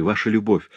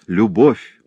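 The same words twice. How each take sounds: First: Said in the usual way. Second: Любовь said louder with a rising tune; stressed любовь. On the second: Acted. Husband insisting to Клеманс on one word, stressed. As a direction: lean hard on любовь. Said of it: "Вы слышите, Клеманс".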